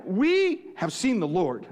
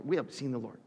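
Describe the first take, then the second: First: Slow proclamation. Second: Hushed, awed repeat. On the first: Acted. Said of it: "they told him". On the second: Shown as a demonstration. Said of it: "I just love that line".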